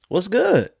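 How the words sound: It sounds warm and happy to see you.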